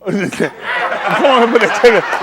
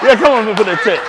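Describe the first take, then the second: First: Drawn-out words, very slow, laughing through them; laughing slow urging. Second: Said in the usual way. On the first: Real, not acted. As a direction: stretch it out slowly while laughing. Host laughing, urging contestant.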